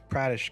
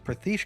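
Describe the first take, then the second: First: The middle consonant is a d-like sound. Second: The middle consonant is a soft th sound. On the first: The speaker calls it wrong. "it's like British" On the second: The speaker calls it right. "which is number one"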